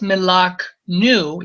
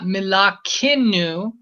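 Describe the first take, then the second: First: The k and n are joined with no vowel. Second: A vowel is inserted between the k and n. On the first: The speaker calls it right. "and right also right here, et milaknu" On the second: The speaker calls it wrong. "It's not milakinu"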